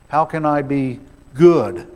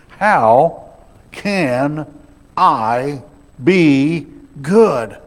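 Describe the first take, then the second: First: Only some words carry emphasis. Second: Every single word carries emphasis. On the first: The speaker feels too sinful to ever become good. "Or maybe we do it this way" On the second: The speaker needs help at every level. "sometimes we just put the emphasis on every single word"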